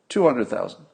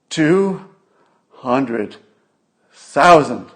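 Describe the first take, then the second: First: It is said in a flat, matter-of-fact way. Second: It is said in a dramatic, accusing way. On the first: It is simply a number. "if you were just, let's say, a mathematician, you'd say two hundred thousand" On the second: Someone is being blamed for these deaths. "if you're a pundit on C N N and you're trying to accuse President Trump"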